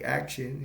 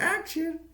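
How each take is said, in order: First: Said in the usual way. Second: Very high squealed "Action."; "Action." jumps far up in pitch and falls at the end; yelled action. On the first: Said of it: "they're gonna be like". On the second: Retold or imitated. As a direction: shriek "Action." way up high like a kid director. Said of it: "he yells out".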